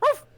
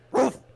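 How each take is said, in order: First: The bark is light and cute. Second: The bark is rough and raspy.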